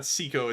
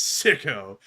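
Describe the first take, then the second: First: "Sicko" said as SEE-ko, long ee; "Sicko" with a long ee vowel, SEE-ko; wrong pronunciation. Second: "Sicko" said as SICK-o, short i; corrected pronunciation. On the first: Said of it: "remember, Matthew, it's not Sicko". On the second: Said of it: "remember, Matthew, it's Sicko". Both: Shown as a demonstration.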